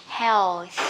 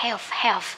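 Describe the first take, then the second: First: HEALTH with tongue-out TH at the end; correct TH ending. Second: HEALTH with a final F sound; mispronounced health. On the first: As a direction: finish HEALTH on a long, airy TH. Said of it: "Thì mình phải đưa lưỡi ra". (đọc HEALTH đưa lưỡi ra ở âm TH cuối) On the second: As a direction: say HEALTH like "helf", no TH. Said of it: "các bạn hay phát âm sai". (đọc sai HEALTH thành "heo-f") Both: Shown as a demonstration.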